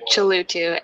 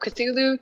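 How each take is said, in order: First: The name is said as Chalutu. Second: The name is said as Cthulhu. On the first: "turned into Chalutu" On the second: "Cthulhu turned into"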